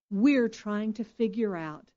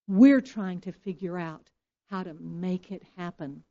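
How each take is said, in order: First: Said in the usual way. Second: "We're trying to figure out how to make it happen" preached louder, with weight on "We're"; emphatic repeat. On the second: Shown as a demonstration. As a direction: lean hard into "We're", louder as you repeat.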